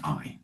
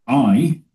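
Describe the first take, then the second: First: Said in the usual way. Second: "I" punched higher and louder; emphatic I. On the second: Shown as a demonstration. Reading God's words to the group, "I" stressed hard. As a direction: hit "I" hard, God speaking. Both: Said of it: "it's emphatic".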